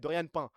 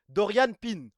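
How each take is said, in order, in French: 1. Le nom de famille a une voyelle nasale, comme pain. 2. Le nom de famille a une voyelle 'ee' claire, comme pin.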